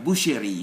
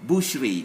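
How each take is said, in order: First: "boucherie" as boo-she-ree; wrong, e pronounced. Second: "boucherie" as boosh-ree; sh straight into r in "boucherie"; silent e. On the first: Teacher showing the wrong French form, e sounded. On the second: Teacher modelling the exam form, e silent. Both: Shown as a demonstration. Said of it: "not boucherie".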